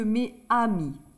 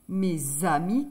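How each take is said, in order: First: No z sound links mes to amis. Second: A z sound links mes to amis. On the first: The speaker calls it wrong. "que mes amis" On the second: The speaker calls it right. "On fait la liaison mes amis. C'est plus joli de dire"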